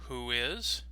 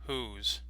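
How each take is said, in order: First: Both words are said fully and separately. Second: The words are shortened into one syllable. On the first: "the full form" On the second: "the contraction"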